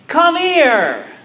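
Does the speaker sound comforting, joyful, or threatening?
joyful. It is said in a warm, joyful tone. A long-missed friend is being welcomed. "a friend who hasn't seen another friend in a long time"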